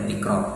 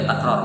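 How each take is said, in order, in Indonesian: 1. Vokal pertama adalah bunyi 'i'. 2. Vokal pertama adalah bunyi 'a'. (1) "bukan dibaca tikrar" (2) "Di sini dibaca takrar"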